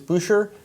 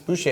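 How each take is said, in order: First: The R sound is pronounced in the name. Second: The R sound is silent in the name. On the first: The speaker calls it wrong. "People that are unfamiliar may think it's Boucher" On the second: The speaker calls it right. "It's a silent R"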